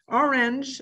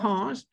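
First: The word has an English pronunciation. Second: The word has a French pronunciation.

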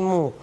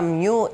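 First: It is said without a glide, like 'moo'. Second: It is said with a y-glide, like 'myoo'. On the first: "δεν ξέρω αν την προφέρω σωστά" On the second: "δεν ξέρω αν την προφέρω σωστά"

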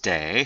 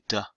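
First: The syllable dips low with a third tone. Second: The syllable is short and light, neutral tone. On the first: It means have to. "this is day third tone" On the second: It links a verb to its description. "neutral tone would be 的"

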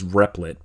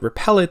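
First: The name is said with two syllables. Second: The name is said with three syllables. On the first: "The official pronunciation, I believe, is Replit" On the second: "I call it Repellit"

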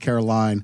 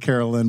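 First: The name is said like the song's pronunciation. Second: The name is said unlike the song's pronunciation. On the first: The speaker calls it right. "It is like sweet Caroline" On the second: The speaker calls it wrong. "It is not a [name]"

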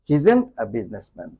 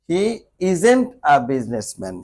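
First: The words 'he' and 'isn't' merge into one. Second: The words 'he' and 'isn't' are said separately.

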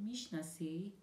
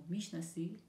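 Both takes have the same delivery.

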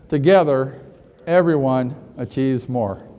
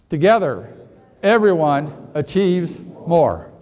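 First: It is said plainly with ordinary energy. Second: It is said with more force and energy.

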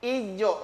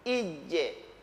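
First: The echo after the j sounds like o. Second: The echo after the j sounds like e. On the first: The speaker calls it wrong. "Berubah kalau begitu" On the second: The speaker calls it right. "Ketika dia sukun jangan rubah mulutnya"

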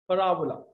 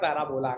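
First: The stress falls on the second syllable. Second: The stress falls on the third syllable. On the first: The speaker calls it right. "It's parabola" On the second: The speaker calls it wrong. "It's not parabola"

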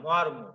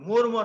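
First: The first vowel is the open natural sound. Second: The first vowel is a rounded o-sound. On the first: The speaker calls it right. "এর উচ্চারণ স্বাভাবিক হবে" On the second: The speaker calls it wrong. "মর্ম নয়"

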